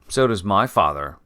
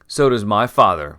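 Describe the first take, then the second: First: It is said in a plain voice. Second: It is said in a whining voice.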